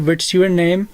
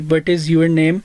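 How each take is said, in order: First: The words 'what is' are contracted to 'what's'. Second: The words 'what is' are said in full. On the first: The speaker calls it right. "आप लोग कहेंगे" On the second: The speaker calls it wrong. "आप लोगों ने इसी तरह नहीं कहना"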